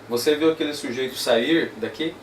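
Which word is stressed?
sair. The stress falls on the word sair. "passa para a próxima, a próxima palavra"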